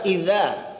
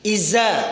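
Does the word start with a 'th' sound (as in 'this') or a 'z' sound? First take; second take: th; z. First: The first consonant is a voiced 'th' sound. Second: The first consonant is a plain z sound. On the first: The speaker calls it right. "padahal iza" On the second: The speaker calls it wrong. "logat saya logat Medan atau logat Sumatera ... membaca za itu jadi za"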